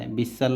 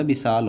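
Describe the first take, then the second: First: विशाल said short as bisal, second vowel clipped; teacher showing the mistaken reading विशाल; wrong reading. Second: विशाल with long aa, bi-saal; correct reading. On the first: Teacher to student, showing the wrong reading of विशाल. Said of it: "विशाल नहीं होता". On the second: Teacher to student, giving the correct विशाल with long aa. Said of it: "विशाल होता है". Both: Shown as a demonstration.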